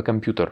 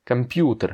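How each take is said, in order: First: "computer" with the stress moved to the last syllable TER; wrong final stress. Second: "computer" with PU stressed and long, TER light. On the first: Teacher showing the tempting mistake, stress on final TER in "computer". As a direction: stress the end of "computer", French-style. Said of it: "mettre l'accent sur la dernière syllabe". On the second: Teacher setting right against wrong, stress on PU in "computer". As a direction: punch the "pu" of "computer". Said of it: "c'est computer et pas computer". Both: Shown as a demonstration.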